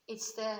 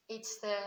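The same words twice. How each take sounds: The two takes are said the same way.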